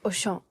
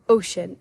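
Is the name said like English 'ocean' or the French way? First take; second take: French; English ocean. First: It is said with a French pronunciation. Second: It sounds like the English word ocean. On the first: The speaker calls it right. "that's how you say it in French" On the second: The speaker calls it wrong. "it's not ocean"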